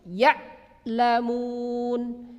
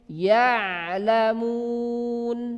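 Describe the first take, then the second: First: The ain is forced strongly and cut off. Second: The ain flows smoothly without being cut off. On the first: The speaker calls it wrong. "Keluar seolah-olah kuat sekali. Itu tidak boleh" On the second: The speaker calls it right. "Jangan diputus"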